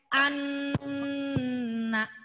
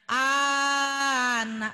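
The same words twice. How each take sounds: First: The first vowel is short, the n is held. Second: The first vowel is long, the n is short. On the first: The speaker calls it right. "N-nya yang ditekan" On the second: The speaker calls it wrong. "Jangan anak, bukan A-nya yang panjang ya"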